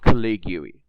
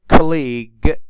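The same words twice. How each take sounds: First: The silent letter is pronounced aloud. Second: The silent letter is not pronounced. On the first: The speaker calls it wrong. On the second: The speaker calls it right.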